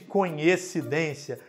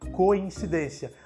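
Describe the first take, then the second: First: The first syllable is pronounced 'coen'. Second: The first syllable is pronounced 'coin'. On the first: The speaker calls it wrong. "Nada de coincidência, como a gente costuma ver e ouvir por aí" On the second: The speaker calls it right. "A pronúncia correta, portanto, é coincidência"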